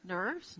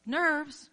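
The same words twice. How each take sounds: First: Said in the usual way. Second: Nerves, said higher and louder; Nerves, thrown out loud and high; emphatic nerves. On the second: Shown as a demonstration. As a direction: punch the first Nerves, hard. Repeats the word for emphasis.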